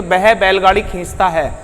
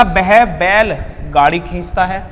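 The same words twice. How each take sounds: First: बैलगाड़ी run together as one word; no break between बैल and गाड़ी in बैलगाड़ी; group it as वह, then बैलगाड़ी खींचता है; joined phrasing. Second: Slow, with a pause after बैल before गाड़ी; group वह बैल together, then गाड़ी खींचता है; split phrasing. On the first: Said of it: "इसका मतलब ये हुआ कि कोई व्यक्ति है". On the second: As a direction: break between बैल and गाड़ी. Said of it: "यहाँ पर सीधा बैल की ही बात". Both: Shown as a demonstration.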